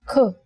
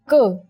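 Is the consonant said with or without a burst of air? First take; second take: with; without. First: The consonant is said with a burst of air. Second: The consonant is said without a burst of air. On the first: "when you say it with aspiration" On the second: "When you say it without aspiration"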